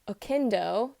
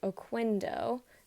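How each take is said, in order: First: The name is pronounced the Spanish way. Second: The name is pronounced the English way. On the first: This is how the family says the name. "her last name is Oquendo" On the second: This is how many English speakers say the name. "in English, a lot of people pronounce it Oquendo because of the Q"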